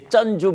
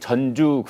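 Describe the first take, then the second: First: The first consonant is tense and hard. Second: The first consonant is plain and lax. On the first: It means the person who put up the money. "대충 이제 쩐주 뭐 이렇게들 발음 많이 했죠" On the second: It sounds like the name of a city. "전주 그러면 대개 그 우리 전라북도의 도청 소재지를 떠올리시는 분들이 많은데"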